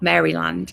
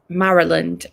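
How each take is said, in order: First: The first part sounds like the name Mary. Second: The first part does not sound like Mary. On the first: The speaker calls it wrong. "not Maryland" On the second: The speaker calls it right. "isn't pronounced like the name Mary"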